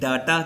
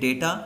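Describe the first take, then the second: First: The first vowel sounds like 'ah'. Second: The first vowel sounds like 'ay'. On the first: The speaker calls it wrong. "कुछ लोग wrong pronounce करते हैं, डाटा कहते हैं" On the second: The speaker calls it right. "Correct pronunciation है वो है डेटा"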